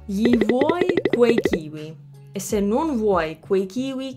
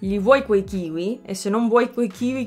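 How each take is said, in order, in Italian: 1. La frase è detta più lentamente. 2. La frase è detta più velocemente.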